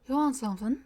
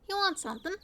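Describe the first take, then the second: First: The voice is lower and somewhat breathy. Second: The voice is plain and not breathy. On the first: The speaker calls it right. "That might be it" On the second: The speaker calls it wrong. "I think that's meant to be lower"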